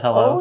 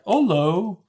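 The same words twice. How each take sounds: First: The word hello is pronounced in the usual way. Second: The word hello is pronounced in an odd way. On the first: This is the ordinary way to say it. The speaker calls it right. "instead of hello" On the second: This imitates a character's habitual mispronunciation. The speaker calls it wrong. "he mispronounces certain words"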